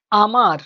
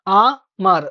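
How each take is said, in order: First: Said in the usual way. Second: আ-মার broken into two parts, আ then মার; split into syllables. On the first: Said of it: "যেমন হচ্ছে". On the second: Shown as a demonstration. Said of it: "দুটো দল". (আ-মার দুই দলে ভেঙে বলা)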